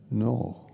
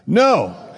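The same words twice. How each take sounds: First: It is said gently and softly. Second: It is said loudly.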